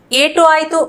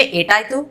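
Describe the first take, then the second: First: Said in the usual way. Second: एट आई तो run together as "etaaytu"; words joined. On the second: Shown as a demonstration. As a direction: drop the u of etu in एट आई तो. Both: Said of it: "इसको हम जोड़ के बोलेंगे".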